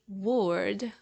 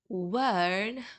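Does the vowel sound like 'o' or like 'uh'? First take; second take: o; uh. First: The vowel sounds like a rounded o. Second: The vowel sounds like a neutral uh. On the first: The speaker calls it wrong. "you won't say word" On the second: The speaker calls it right. "instead you will say word"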